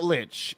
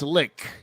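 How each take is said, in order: First: The word ends in a ch sound. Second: The word ends in a k sound. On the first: The speaker calls it wrong. "but it's not lich" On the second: The speaker calls it right. "That's the per, uh, correct pronunciation"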